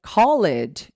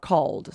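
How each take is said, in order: First: CALLED as two syllables, call-ED; wrong ed ending. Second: CALLED as one syllable, cawld; correct D ending. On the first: Teacher contrasts wrong with right, "called" mispronounced as call-ed. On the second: Teacher gives the right form, "called" in one syllable. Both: Shown as a demonstration. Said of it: "called is not called".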